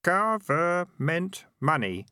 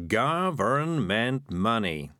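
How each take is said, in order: First: Higher, slow, dutiful repeat of "Government money"; "Government money" recited obediently in a lighter, higher voice; obedient boy. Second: Slow, syllable-by-syllable "Government money"; "Government money" spaced out in the usual pitch; patient prompting. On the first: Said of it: "said the boy obediently". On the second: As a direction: model "Government money" slowly for someone to repeat. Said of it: "said Morris patiently". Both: A narrator's reading.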